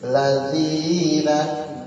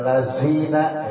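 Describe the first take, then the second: First: The middle consonant is a voiced th sound. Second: The middle consonant is a plain z sound. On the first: The speaker calls it right. "tapi ladzina" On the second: The speaker calls it wrong. "bukannya lazina ya"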